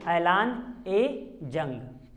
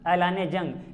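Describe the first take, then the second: First: A short 'e' vowel links the two words. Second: No linking vowel comes between the two words. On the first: The speaker calls it right. "लेकिन ऐलान ए जंग ये होता है" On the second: The speaker calls it wrong. "जैसे मैदान जंग बोलते हैं"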